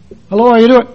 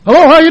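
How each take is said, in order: First: It is said at a lower, quieter volume. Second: It is said at a louder, normal volume.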